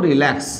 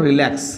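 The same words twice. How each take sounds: No difference in how they are said.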